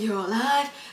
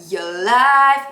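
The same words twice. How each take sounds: First: It is said loosely and relaxed. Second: It is said crisply and energetically.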